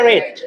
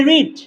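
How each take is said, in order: First: রেড said with a short e, like the colour red; pronounced red. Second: রিড said with a long ee vowel, like reed; pronounced reed. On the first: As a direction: say রেড as the past form, short and clipped to red. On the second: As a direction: say রিড as the present tense, rhyming with need. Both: Shown as a demonstration. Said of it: "পার্থক্য কি উচ্চারণে".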